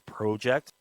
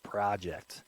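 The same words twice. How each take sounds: First: It is said with a Canadian vowel. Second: It is said with an American 'ah' vowel.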